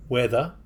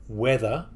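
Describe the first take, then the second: No difference in how they are said.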